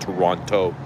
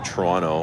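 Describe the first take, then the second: First: Every sound is pronounced as it is spelled. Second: Some sounds are dropped in a reduced form. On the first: "the way it's spelled or written" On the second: "we just say Toronto"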